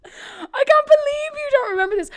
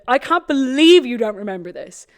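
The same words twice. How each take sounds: First: Much higher, near tears with laughter; high, crying disbelief. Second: Said in the usual way. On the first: Real, not acted. Host wails at her co-host for forgetting, high and crying. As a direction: wail it in mock despair.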